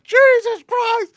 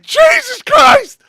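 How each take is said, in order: First: High, loud, slow amazed curse; stunned loud oath; shocked exclamation. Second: Loud high shout of shock, drawn out; stretched-out loud gasp of a curse; shocked yell. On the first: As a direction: drag it out in disbelief. Watching through binoculars. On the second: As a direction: yell it like you can't believe your eyes. Sees neighbor through window. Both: Retold or imitated.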